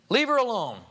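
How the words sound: It is said with a little anger. "with a little bit of anger"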